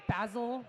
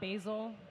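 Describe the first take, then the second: First: It is said with a British pronunciation. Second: It is said with an American pronunciation. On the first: The speaker calls it right. "it's the British way of saying it" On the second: The speaker calls it wrong. "not basil"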